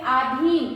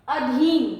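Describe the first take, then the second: First: आधीन with a long first आ; wrong long a. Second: अधीन with short first अ; correct short a. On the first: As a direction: show the common mistake, long आ. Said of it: "बहुत सारे लोग इसकी गलती करते हैं". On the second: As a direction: present the right form clearly. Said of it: "चौथा शब्द है". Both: Shown as a demonstration.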